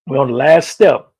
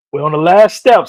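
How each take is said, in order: First: Loud, urging call to keep going; rally them like a coach; loud push. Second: Louder rally. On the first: Coach rallying viewers on the last step, loud. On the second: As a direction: raise it up a notch to fire them up. Pushing viewers through the final step. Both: Real, not acted.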